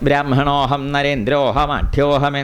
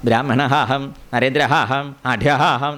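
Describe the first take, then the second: First: The vowels are merged into one syllable. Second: An extra separate 'a' vowel is sounded. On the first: The line keeps its meter. The speaker calls it right. "അതൊരു വൃത്തത്തിലാണ് പോകുന്നത്" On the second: The line breaks its meter. The speaker calls it wrong. "പ്രാന്താവില്ലേ? വൃത്തഭംഗം വരും"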